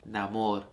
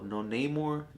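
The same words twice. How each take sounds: First: Namor with open Spanish a sounds, na-MOR. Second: Namor said the English way, as NAY-mor; anglicized Namor. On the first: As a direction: say Namor the Spanish way, short a's and a crisp MOR. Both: Shown as a demonstration. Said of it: "Throw that accent on there".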